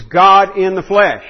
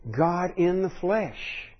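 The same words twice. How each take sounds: First: Slow, louder, every word weighted; emphatic proclamation. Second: Slow, much softer, almost reverent; hushed awe. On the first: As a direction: proclaim it slowly and firmly. Preacher stresses Christ's divinity. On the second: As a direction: let it fall quietly and slowly. Preacher repeats phrase in awe. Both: Real, not acted.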